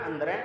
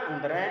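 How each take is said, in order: The two takes are said the same way.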